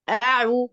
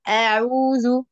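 First: The first vowel is short, with no lengthening. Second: The first vowel is drawn out long. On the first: The speaker calls it right. "هي مجرد فتحة" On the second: The speaker calls it wrong. "وليس أعوذ"

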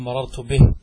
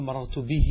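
First: The last word ends on a silent, bare h. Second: The last word ends in a long 'ee' vowel. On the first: "هذه الياء أحذفها. قف على مررت به" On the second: "أشبعنا الكسرة فتولد لنا ياء، فنقول مررت به، لاحظ به ياء"

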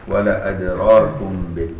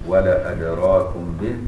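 The two takes are said the same way.

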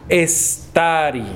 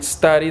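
First: The word starts with an added e vowel. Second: The word starts directly with the s sound. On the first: The speaker calls it wrong. "Eso es incorrecto" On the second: The speaker calls it right. "En lugar de decir stari"

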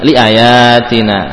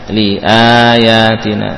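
First: The vowel after the glottal stop is short. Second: The vowel after the glottal stop is long. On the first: The speaker calls it wrong. "bukan liayatina ya" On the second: The speaker calls it right. "maka alifnya berfungsi menjadi huruf mad"

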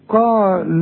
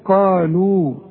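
First: The final long vowel is dropped into the next word. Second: The word ends with a long u vowel. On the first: The reader continues without stopping. "عند الوصل هنقول قال ادعوا لنا، هنلغي الواو" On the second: The reader stops after this word. "إذا وقفت هنقول قالوا"

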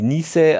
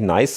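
First: The vowel sounds like a long 'ee'. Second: The vowel sounds like the vowel in 'ice'. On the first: This is how the name is actually pronounced. The speaker calls it right. "sondern irgendwie niese" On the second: This is how the owner of the name insists on it. The speaker calls it wrong. "eigentlich ist es auch nicht nice"

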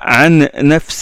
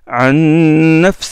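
First: The n sound is short, without a nasal hum. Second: The n sound is held long with a nasal hum. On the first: The speaker calls it wrong. "On ne dit pas عن نفس" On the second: The speaker calls it right. "on prolonge un peu le nom avec une nasalisation"

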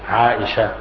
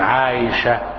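First: The middle consonant is a glottal stop. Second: The middle consonant is a y sound. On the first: "بهمزة محقق" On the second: "بإبدال الهمزة يا"

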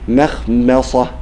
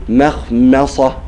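Both takes have the same delivery.

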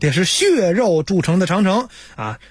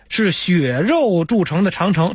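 First: 血 is pronounced differently from snow. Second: 血 is pronounced the same as snow, xuě. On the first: This is the standard reading. The speaker calls it right. "得是血肉铸成的长城" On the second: This is the old Beijing reading. The speaker calls it wrong. "不能血，是血肉铸成的长城，这是错的"

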